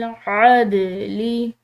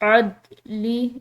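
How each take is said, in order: First: The d sound is released with a slight bounce. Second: The d sound is held still, without any bounce. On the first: The speaker calls it right. "इसको हमने हिलाते हुए अदा करना है" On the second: The speaker calls it wrong. "सुकून के साथ अदली इस तरह करके नहीं पढ़ेंगे"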